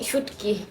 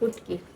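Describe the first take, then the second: First: The word starts with a 'sh' consonant. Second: The word starts with an 'u' vowel. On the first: This is the standard regional form. "আমরা বলি শুটকি" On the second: This is the Sylheti dialect form. "সিলেটিয়ারা বলে উটকি"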